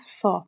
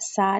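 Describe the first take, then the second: First: The vowel is a heavy, rounded 'o'-like sound. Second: The vowel is a thin, open 'aa' sound. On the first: The speaker calls it right. "ओ की साउंड होनी चाहिए" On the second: The speaker calls it wrong. "सा नहीं"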